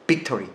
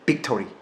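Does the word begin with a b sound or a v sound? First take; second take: b sound; b sound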